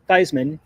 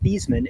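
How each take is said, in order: First: The name rhymes with Heisman. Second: The name does not rhyme with Heisman. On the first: This is the changed pronunciation chosen to match the award. "change the pronunciation of his last name to Theismann to rhyme with Heisman" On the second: This is the original family pronunciation. "His last name was pronounced Theismann"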